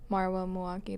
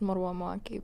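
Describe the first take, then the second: First: The name is said in an anglicized pronunciation. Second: The name is said in its original pronunciation. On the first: This is the simpler everyday version of the name. "I also just go by" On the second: This is how the name is truly pronounced. "my name's actually pronounced"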